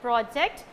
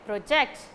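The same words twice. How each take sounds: First: The stress is on the first syllable. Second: The stress is on the second syllable. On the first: It is a noun. "If you are giving stress to the first syllable" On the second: It is a verb. "If you are giving stress to the second syllable"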